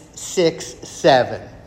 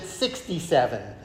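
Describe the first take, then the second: First: It is said as two separate digits, six seven. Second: It is said as the single number sixty-seven. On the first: The speaker calls it right. "It's 6'7"" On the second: The speaker calls it wrong. "you never pronounce it 67"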